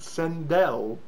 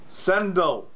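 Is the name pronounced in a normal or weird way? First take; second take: weird; normal. First: The name is pronounced in an odd, unusual way. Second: The name is pronounced in an ordinary way. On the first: The speaker calls it wrong. "he said Sandel. Like, really weirdly" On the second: The speaker calls it right. "it's called Sendel"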